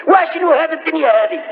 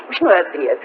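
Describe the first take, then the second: First: Raised, rising plea of a grieving companion; higher pleading cry. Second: Said in the usual way. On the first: Retold or imitated. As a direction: lift the question like a man near tears. Omar's plea, repeated higher.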